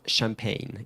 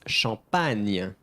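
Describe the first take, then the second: First: The first vowel sounds like an 'e'. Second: The first vowel sounds like an open 'a'. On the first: The speaker calls it wrong. "Not champagne" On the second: The speaker calls it right. "The A, A, champagne, not E"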